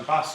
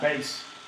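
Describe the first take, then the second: First: The word has a short 'a' vowel. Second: The word has a long 'ay' vowel. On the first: It names a fish. "obviously being a fish" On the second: It refers to low-pitched music. "big fish, little fish, cardboard box"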